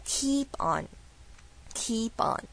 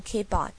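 First: "keep on" slow, with a long stretched ee; softer, very slow "keep on" with spread-lip ee; long E, smiling. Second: "keep on" with a short i, like "kip on"; wrong-way "keep on", lax quick vowel; short vowel mistake. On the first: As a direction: smile wide and draw out the ee in "keep on". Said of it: "一定要用非常大的微笑去发这个声音". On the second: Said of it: "请不要念". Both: Shown as a demonstration.

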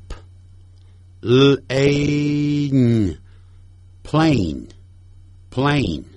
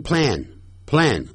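First: Plane said slowly with a long A as in "ay"; correct plane. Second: Plan said with a short flat A like "plan"; the mistaken short A in plan; wrong plan. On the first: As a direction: spell P L A N then say plane with a drawn-out long A. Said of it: "我们一块来跟着念下面的字". (慢读plane，A发长音ei) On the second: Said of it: "不要念成plan". (错误读法plan，A发短音) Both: Shown as a demonstration.

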